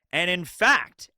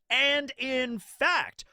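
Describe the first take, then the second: First: Said in the usual way. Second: "and in fact" stretched out very slowly, higher; drawn-out emphasis. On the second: Real, not acted. Vlogger repeating himself to underline a point, slow and emphatic. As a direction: draw out each word of "and in fact".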